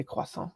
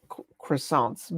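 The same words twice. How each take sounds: First: "croissant" the French way, kwa-san with silent t; French pronunciation. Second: "croissants" with an English r and sounded final ts; English pronunciation. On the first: French streamer showing viewers their own way, "croissant" in native French. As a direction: softly say "croissant" in French, nasal ending and no final t. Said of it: "I say". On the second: Streamer showing viewers how they tried to say it, "croissants" anglicized. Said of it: "I tried to say it". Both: Shown as a demonstration.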